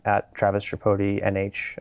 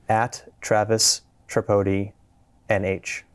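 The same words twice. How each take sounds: First: It is said at normal conversational speed. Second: It is said slowly and carefully.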